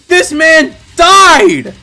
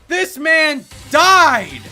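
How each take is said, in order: First: It is said very loudly. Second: It is said a bit more quietly.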